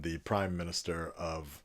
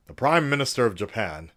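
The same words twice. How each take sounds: First: Said in the usual way. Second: Loud, grand statesman delivery; mock presidential address. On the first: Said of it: "But in all seriousness". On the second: Vlogger parodying a national address, grand and declaiming. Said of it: "I don't know why I keep doing this accent".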